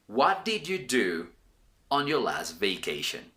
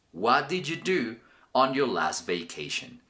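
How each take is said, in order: First: "What did you do" said slowly, "vacation" falling low; slow question read. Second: Said in the usual way. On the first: Shown as a demonstration. Teacher asking viewers the video question, slow and clear. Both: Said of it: "This video's question will be".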